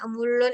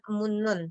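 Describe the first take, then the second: First: The middle consonants are both pronounced as l. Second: The middle consonants are both pronounced as n. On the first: "Ada yang mereka bilangnya emulon itu juga ada" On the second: "kebanyakan nian"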